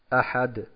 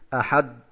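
First: The final d has a short echoing release. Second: The final d stops with no echo after it. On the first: The speaker calls it right. "es noch einen kurzen Nachton gibt" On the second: The speaker calls it wrong. "Das heißt, es gibt keinen Ton danach. Das wäre nicht richtig"

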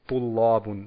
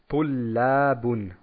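First: The L sounds heavy and dark. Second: The L sounds light and plain. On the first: The speaker calls it wrong. "nicht Tullabun, das ist falsch" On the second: The speaker calls it right. "Also ganz normal ausgesprochen"

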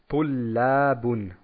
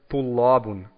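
First: The L sounds light and plain. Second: The L sounds heavy and dark. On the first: The speaker calls it right. "Also ganz normal ausgesprochen" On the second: The speaker calls it wrong. "Hier ebenfalls ein Fehler ... dass man sagt Tullabun"

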